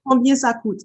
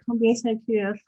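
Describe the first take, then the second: First: It is said with a native French accent. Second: It is said with an exaggerated American accent.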